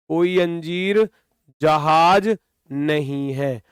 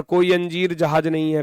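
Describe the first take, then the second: First: "कोई अंजीर ... जहाज ... नहीं है" in three separate pieces; teacher spelling out "कोई अंजीर, जहाज, नहीं है" piece by piece; word-by-word emphasis. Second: Said in the usual way. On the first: Real, not acted. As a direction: pause after अंजीर and after जहाज, letting नहीं है drop. Teacher repeats premise for emphasis.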